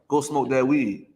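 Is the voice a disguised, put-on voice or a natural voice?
natural. It is said in an ordinary, natural voice. The temptation sounds like your own thoughts. The speaker calls it right. "It's gonna come in the voice of you"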